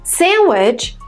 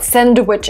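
First: No D sound is heard before the W. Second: A D sound is heard before the W. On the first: The speaker calls it right. "allows you to sing while speaking" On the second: The speaker calls it wrong. "three consonant sounds. This is too hard"

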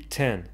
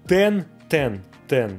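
First: The t has a slight puff of breath. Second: The t is hard with no breath after it. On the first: The speaker calls it right. "Мы говорим ее с небольшим придыханием" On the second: The speaker calls it wrong. "Твердо звучит по-русски"

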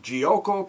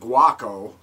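First: The word begins with a soft j sound. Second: The word begins with a hard g sound. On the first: The speaker calls it right. "I think that's how you pronounce it" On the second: The speaker calls it wrong. "I used to call it guaco"

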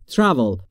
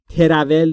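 First: The T and R are joined with no vowel. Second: A short vowel is inserted between T and R. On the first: The speaker calls it right. "بین T و R صدایی وجود نداره" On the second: The speaker calls it wrong. "تراول نیست"

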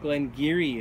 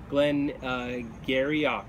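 First: The name is said in its Doric Scots pronunciation. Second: The name is read out as English letters suggest. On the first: The speaker calls it right. "is the correct pronunciation. And this is from the Doric dialect of Scots" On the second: The speaker calls it wrong. "In terms of, an English perspective, this looks like Glen Garioch"

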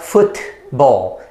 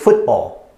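First: The middle t is fully released. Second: The middle t becomes a throat stop. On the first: The speaker calls it wrong. "It's not football" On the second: The speaker calls it right. "it's football"

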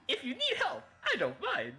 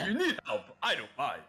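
First: It is said in a normal voice. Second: It is said in a deep voice.

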